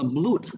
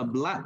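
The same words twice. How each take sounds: First: "blood" mispronounced with an oo sound, like "bloot"; wrong vowel. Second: "blood" with a short uh sound, like "blut" in "butter"; short A vowel. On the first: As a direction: say "blood" to rhyme with boot. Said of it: "Từ này không đọc là blood". (đọc sai "blood" thành "blút") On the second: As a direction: say "blood" to rhyme with mud. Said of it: "mà chúng ta đọc là blood". (đọc "blood" với âm Á ngắn, như "blát") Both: Shown as a demonstration.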